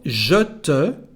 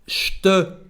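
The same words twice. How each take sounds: First: Both words are said fully with their vowels. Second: The two words run together with a dropped vowel. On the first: "Instead of je te" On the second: "in French, we say je te"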